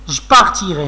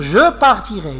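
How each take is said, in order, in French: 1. Le e du milieu est supprimé. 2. Le e du milieu est prononcé. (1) "je ne dois pas lire je partirai" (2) "je dois lire je partirai"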